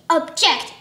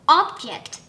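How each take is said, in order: First: The stress is on the second syllable. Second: The stress is on the first syllable. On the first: It is used as a verb meaning to complain. The speaker calls it right. "This word is object" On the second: It is used as a noun meaning a thing. The speaker calls it wrong. "not object"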